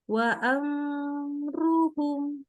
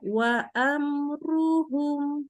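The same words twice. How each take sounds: First: The m sound is drawn out too long. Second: The m sound is short and clear. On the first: The speaker calls it wrong. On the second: The speaker calls it right.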